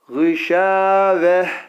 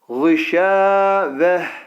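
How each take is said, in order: First: The word ends with a soft 'h' sound. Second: The same.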